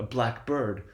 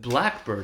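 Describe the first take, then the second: First: Both parts carry strong main stress. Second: Only one part carries the main stress.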